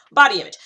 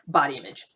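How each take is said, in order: First: Laughing emphasis. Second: Said in the usual way. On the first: Shown as a demonstration. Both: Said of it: "Yeah, I'm going there".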